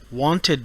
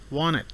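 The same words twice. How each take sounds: First: The T sound after N is pronounced. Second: The T sound after N is dropped.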